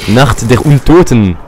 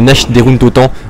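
First: Nacht is said with a German guttural final sound. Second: Nacht is said with a French-style 'sh' ending.

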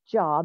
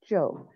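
First: The vowel is short, as in 'rob'. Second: The vowel is long, as in 'robe'. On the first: It names ordinary work. The speaker calls it wrong. "not Job, even though it looks like Job" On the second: It names the biblical character. The speaker calls it right. "it is Job"

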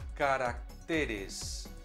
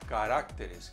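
First: The stress is on the syllable te. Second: The stress is on the syllable rac. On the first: The speaker calls it right. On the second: The speaker calls it wrong.

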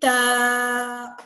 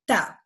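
First: The vowel is stretched out long. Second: The vowel is short and quick. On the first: "I'm not saying ta" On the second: "I'm saying it fast, quick"

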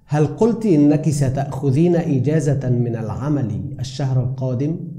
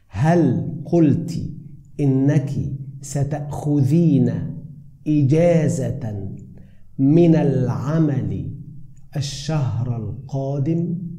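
First: It is spoken at normal conversational speed. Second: It is spoken slowly and clearly.

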